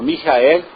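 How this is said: It is said with German sounds. The speaker calls it right. "que é o nome alemão"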